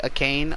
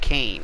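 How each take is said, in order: First: An extra vowel sound comes before Kane. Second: The name starts directly with Kane. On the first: "do I just say a Kane" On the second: "Kane like like regular"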